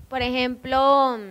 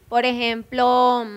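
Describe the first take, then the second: No difference in how they are said.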